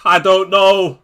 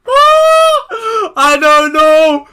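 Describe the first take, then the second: First: Said in the usual way. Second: Very slow, much higher, louder cry of despair; anguished wail. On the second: Real, not acted. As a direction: stretch it into a desperate howl. Agonising over a defender pick.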